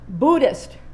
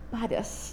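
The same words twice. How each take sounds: First: The first vowel sounds like in wood. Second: The first vowel sounds like in bud. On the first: This is the one to choose. "the second it is, rhymes with wood" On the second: It sounds a little floral. "the last, sounds a little floral"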